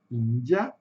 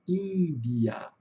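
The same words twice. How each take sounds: First: "Índia" with D softened to a J sound; "Índia" with the Brazilian "dji"; first pronunciation. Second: "Índia" with a plain D; "Índia" with a light pure "di"; second pronunciation. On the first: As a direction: say "Índia" as EEN-jee-a. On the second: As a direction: say "Índia" as IN-dee-a. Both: Shown as a demonstration. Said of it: "eu posso ter as duas pronúncias".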